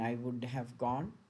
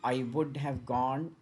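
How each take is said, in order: First: The words are run together with weakened sounds. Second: Each word is said fully and separately.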